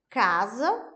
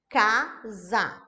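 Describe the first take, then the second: First: Said in the usual way. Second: "casa" split into two separate beats, ca, sa; syllable by syllable. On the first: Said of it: "vou dar um exemplo de duas palavras". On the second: Shown as a demonstration. Therapist showing teachers how to segment, "casa" in separated syllables. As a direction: say "casa" with a clear break between syllables. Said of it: "com as sílabas separadas".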